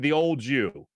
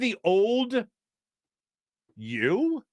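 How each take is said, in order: First: The d and y blend into a j sound. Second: The d and y are said clearly apart. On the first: The speaker calls it wrong. "now I'm hearing it" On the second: The speaker calls it right. "There's the enunciation"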